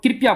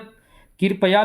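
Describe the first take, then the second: First: The word is said in a shortened form. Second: The word is said in its full form. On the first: This is a hurried, reduced form. The speaker calls it wrong. "लेकिन इसको लोग कृपया बोल देते हैं" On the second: This is the original standard word. The speaker calls it right. "ये मूल शब्द है"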